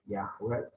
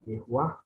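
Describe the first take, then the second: First: The first vowel is an open 'a'. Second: The first vowel is an 'e'. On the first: The speaker calls it wrong. "sebenarnya bukan Yahweh" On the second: The speaker calls it right. "ini Yehwah bacanya ya"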